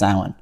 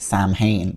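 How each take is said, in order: First: It is said with its native Irish pronunciation. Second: It is said as English speakers usually say it. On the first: The speaker calls it right. "it's actually pronounced" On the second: The speaker calls it wrong. "other English speakers often say wrongly as"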